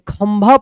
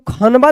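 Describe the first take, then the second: First: The nasal is a half sound before bha. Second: The nasal is said as a full syllable. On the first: The speaker calls it right. "खंभा पढ़ेंगे ... आधा म भा" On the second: The speaker calls it wrong. "इसको खनबा नहीं पढ़ेंगे"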